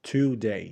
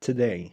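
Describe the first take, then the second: First: "today" as "TOO-DAY"; overfull first syllable. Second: "today" as "tuh-DAY"; snatch the first vowel of "today"; "today" with a schwa after t, stress on day; reduced first syllable. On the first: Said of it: "ما بنقولش". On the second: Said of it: "بنخطفها". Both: Shown as a demonstration.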